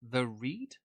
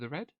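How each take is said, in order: First: The name has a long 'ee' vowel. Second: The name has a short 'e' vowel. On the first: The speaker calls it wrong. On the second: The speaker calls it right. "I've mispronounced your name"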